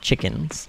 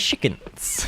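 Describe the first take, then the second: First: The word begins with a 'ch' sound. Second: The word begins with an 'sh' sound. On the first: The speaker calls it right. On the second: The speaker calls it wrong.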